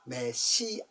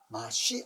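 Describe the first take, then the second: First: It is said with a front first syllable me. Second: It is said with an open first syllable ma. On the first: The speaker calls it wrong. "메시아입니다가 아니고" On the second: The speaker calls it right. "본래대로 하면 마시아"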